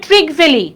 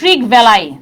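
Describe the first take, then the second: First: The surname ends with an 'ee' sound. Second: The surname ends with an 'eye' sound.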